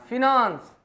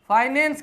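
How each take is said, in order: First: The word is said nasally, as fi-nawns. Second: The word is said plainly, as fy-nance.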